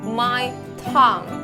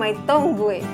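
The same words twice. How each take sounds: First: The phrase is read the English way. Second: The phrase is read the Indonesian way. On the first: The speaker calls it right. "tetapi my tongue" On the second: The speaker calls it wrong. "Bukan my tongue"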